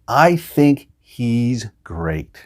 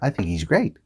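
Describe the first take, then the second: First: It is said carefully with the h pronounced. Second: It is said faster with the h dropped.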